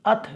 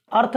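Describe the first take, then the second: First: अथ with no r at all; silent-r demo. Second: अर्थ with the r sounded; wrong reading demo. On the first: Teacher recapping the right reading, carefully pronounced. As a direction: model अथ as short vowel straight into th. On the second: Teacher recapping the mistake, mispronounced. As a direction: show अर्थ with audible r before th. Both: Shown as a demonstration. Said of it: "अर्थ नहीं".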